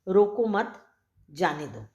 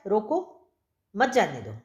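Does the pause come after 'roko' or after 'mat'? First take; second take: after mat; after roko. First: The pause comes after 'mat'. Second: The pause comes after 'roko'.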